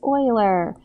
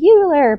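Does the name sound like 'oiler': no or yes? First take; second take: yes; no. First: The name sounds like 'oiler'. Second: The name does not sound like 'oiler'. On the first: The speaker calls it right. "it's Euler. Like the defunct football team" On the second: The speaker calls it wrong. "you'll hear people say Euler, but it's not"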